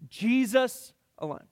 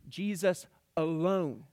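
First: The stress falls on the word Jesus. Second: The stress falls on the word alone. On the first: No one other than him can save. "Exclusive would be Jesus alone" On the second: He needs nothing added to him. "And sufficiency would be Jesus alone"

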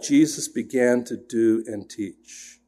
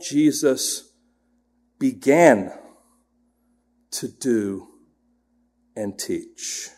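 First: No single word is given special emphasis. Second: The word began is given extra emphasis.

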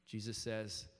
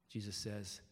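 Both takes have the same delivery.

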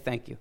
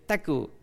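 First: Both words are pronounced fully and clearly. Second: The words are squashed into a childlike mispronunciation. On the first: The speaker calls it right. "you're just teaching them to say thank you" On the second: The speaker calls it wrong. "you get this, teku, or something like that"

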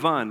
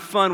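First: The word begins with a v sound. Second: The word begins with an f sound. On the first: "we have vun" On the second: "We don't have fun"

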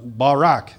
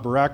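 First: It is pronounced the original Hebrew way. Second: It is pronounced like the familiar English first name. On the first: The speaker calls it right. "Barak is the proper way of saying it" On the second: The speaker calls it wrong. "not Barack Obama"

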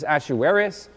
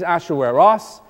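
First: The name is said with an English pronunciation. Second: The name is said with a Hebrew pronunciation. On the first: "which we translate into English as Ahasuerus" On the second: "in Hebrew, his name is Ahasueros"

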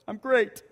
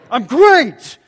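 First: It sounds sad and depressed. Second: It sounds angry and irritated.

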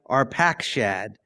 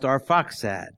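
First: The name is sounded out the way it looks. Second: The name is said in its accepted form. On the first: The speaker calls it wrong. "which looks like Arpakshad" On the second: The speaker calls it right. "but is pronounced Arphaxad"

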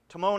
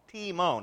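First: The first syllable sounds like 'tie'. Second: The first syllable sounds like 'tee'. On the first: The speaker calls it wrong. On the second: The speaker calls it right.

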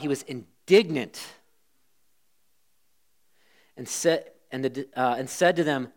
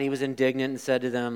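First: The words are read with strong feeling. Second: The words are read flat and without feeling. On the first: The reader means what the words say. The speaker calls it right. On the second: The reader is reciting without meaning it. The speaker calls it wrong.

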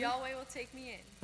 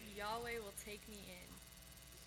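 First: It is said with more enthusiasm and confidence. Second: It is said flatly, without much enthusiasm.

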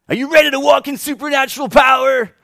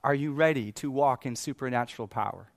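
First: It is said in a put-on salesy speaker voice. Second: It is said in his normal sincere voice.

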